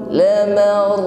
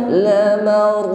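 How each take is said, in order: No difference in how they are said.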